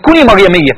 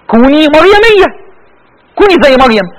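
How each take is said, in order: First: Said in the usual way. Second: High, loud, ringing call; emphatic exhortation. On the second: Real, not acted. (نداء حماسي بصوت عالٍ)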